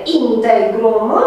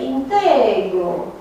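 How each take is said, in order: First: Integrum said slowly, with the final m and the stress on IN; classical pronunciation. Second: Integru said slowly, without the final m; later pronunciation. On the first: Teacher giving students the classical Latin form, slow. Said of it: "clasic este integrum". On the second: Teacher showing students the later spoken form, slow. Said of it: "ajunge să se pronunțe integru". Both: Shown as a demonstration.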